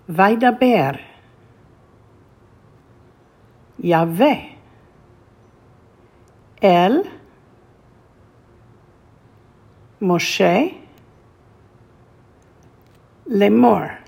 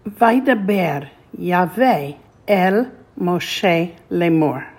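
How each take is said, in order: First: The words are read slowly. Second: The words are read quickly. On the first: "one more time slowly" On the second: "this time let's read it more quickly"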